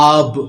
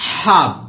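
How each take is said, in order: First: The word starts with a vowel, no h. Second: The word starts with an audible h sound. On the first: "but H is often silent in American style" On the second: "British pronunciation হাব"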